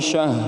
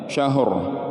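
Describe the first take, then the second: First: The word ends without any R sound. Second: A final R sound is clearly heard. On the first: The speaker calls it wrong. "Ro-nya tidak dibaca" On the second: The speaker calls it right. "kemudian ro-nya juga disukunkan"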